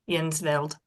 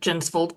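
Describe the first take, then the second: First: The name is said in a Scandinavian way. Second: The name is said in an anglicized way. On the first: This is how the ancestors said it. "my Viking uh, ancestors called it" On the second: This is how the speaker says it today. "I pronounce it Jensvold"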